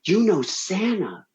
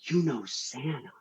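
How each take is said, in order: First: Slow, higher-pitched amazement at full voice; amazed kids. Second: Hushed, slow wonder, much softer; awed child. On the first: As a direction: imitate kids marvelling, drawing out each word. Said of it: "all these kids turn to me and goes". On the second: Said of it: "my business partner's son turns to me and goes". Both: Retold or imitated.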